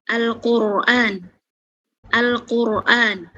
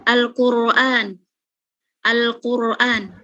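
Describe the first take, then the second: No difference in how they are said.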